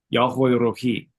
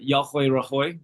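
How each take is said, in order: First: The last word ends with an 'ee' sound. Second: The last word ends with an 'oy' sound. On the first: The speaker calls it right. "That would be Rohi, not Rahoy" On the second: The speaker calls it wrong. "that's not how you pronounce that"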